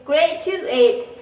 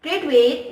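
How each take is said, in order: First: "graduate" split as "gret-tu-et"; pressed T sound. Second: Said in the usual way. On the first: Shown as a demonstration. Student showing Thai English, "graduate" with pressed T. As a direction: press a hard T into "graduate", syllable by syllable. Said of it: "with the pressing the T sounds". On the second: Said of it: "Another example is".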